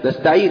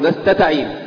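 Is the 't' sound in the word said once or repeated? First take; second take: once; repeated. First: The 't' sound is said once, smoothly. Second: The 't' sound is repeated, like a stutter. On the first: "إياك نعبد وإياك نستعين" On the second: "هو يقول نستتعين ... يكرر التاء"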